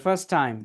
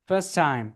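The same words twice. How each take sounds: The two takes are said the same way.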